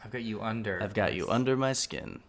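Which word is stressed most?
under. The strongest stress falls on "under". "Maybe the under as well"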